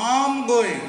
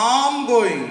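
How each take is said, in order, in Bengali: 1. শব্দগুলো একসাথে মিশে যায় আর ছোট হয়ে যায়। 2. শব্দগুলো একসাথে মিশে যায় আর ছোট হয়ে যায়।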